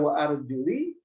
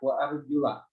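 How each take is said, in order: First: The word ends in the vowel i. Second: The word ends in the vowel a. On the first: The feet are to be wiped. "Jika dibaca wa arjuli" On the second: The feet are to be washed. "Kalau kemudian ininya menggunakan fathah"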